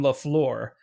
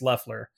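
First: The name is said in a French-sounding way. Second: The name is said in a plain English way. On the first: The speaker calls it wrong. "That makes it sound like they're French or something" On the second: The speaker calls it right. "actually, it's Leffler"

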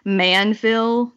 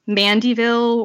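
First: The name is said with two syllables. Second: The name is said with three syllables. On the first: The speaker calls it right. "was Manville" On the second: The speaker calls it wrong. "not Mandyville or whatever the heck I said"

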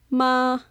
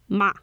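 First: The pitch stays flat and level. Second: The pitch falls from high to low. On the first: It means mother. "The first tone is ma. You can think of having your arm flat" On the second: It is a word to scold someone. "This goes down"

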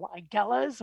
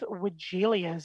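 First: No extra vowel sound comes after the L. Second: An extra vowel sound comes after the L.

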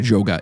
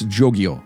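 First: The name ends with a short 'gah' sound. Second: The name ends with a 'gee-oh' sound. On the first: The speaker calls it wrong. "I mispronounced it earlier. I kept calling it a Joga" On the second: The speaker calls it right. "It's Jogio"

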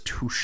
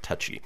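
First: The word ends with an 'ay' sound. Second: The word ends with an 'ee' sound. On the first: The speaker calls it right. "T-O-U-C-H-E with the little thing over the E is touche" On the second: The speaker calls it wrong. "not touchy"

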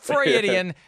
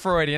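First: The word is said with an extra syllable. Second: The word is said without an extra syllable. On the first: The speaker calls it wrong. "throwing an extra syllable" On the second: The speaker calls it right. "just Freudian"

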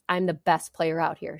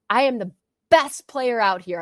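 First: It is said hesitantly, without conviction. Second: It is said fiercely, with full conviction.

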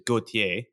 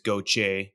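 First: The name is said in an old-family style. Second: The name is said in a South Louisiana style. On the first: "the way my grandmother would pronounce it" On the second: "if you're in South Louisiana"

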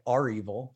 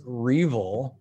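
First: The R is said as a separate letter. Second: The name is said as one word. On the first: "Some people literally say Arevil" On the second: "everybody generally says Revel"

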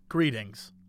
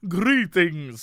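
First: It is said flat, with no accent. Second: It is said in a put-on accent.

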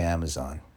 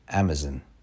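First: It is said in an American accent. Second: It is said in a British accent.

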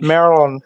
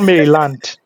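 First: It is said the American local way. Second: It is said the Lagos way. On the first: It names the US state next to Washington, D.C. The speaker calls it right. "that we locals pronounce as Maryland" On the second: It names the area in Lagos. The speaker calls it wrong. "It's not Maryland"

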